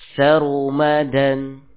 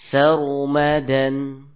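First: The r sound is heavier and fuller. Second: The r sound is less heavy and full.

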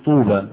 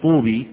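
First: The word ends with a long 'a' vowel. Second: The word ends with a long 'ee' vowel. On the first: The speaker calls it right. "تقول طوبى" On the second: The speaker calls it wrong. "لما تقولش طوبي"

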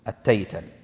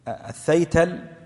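First: The word begins with a 't' sound. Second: The word begins with a 'th' sound. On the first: "وبعضهم ضبطها التيتل بالمثنات" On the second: "بالثاء المثلثة في أوله"

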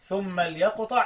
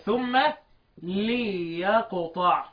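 First: The 'l' has no vowel after it. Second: The 'l' is followed by a short 'i'. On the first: "اللام ساكنة" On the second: "بكسر اللام"

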